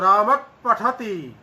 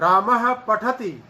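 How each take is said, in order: First: The first word ends in a puff between p and h. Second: The first word ends in a breathy h sound. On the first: "आधे पकार जैसा भी है, आधे हकार जैसा भी है" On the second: "यहां तो वास्तविक विसर्ग का उच्चारण हो रहा है"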